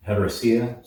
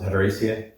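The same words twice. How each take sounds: First: Said in the usual way. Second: Heteracea with a long AY before the final see-ah; heteracea, third syllable said as "ay"; alternative pronunciation. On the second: Shown as a demonstration. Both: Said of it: "Some people pronounce it heteracea".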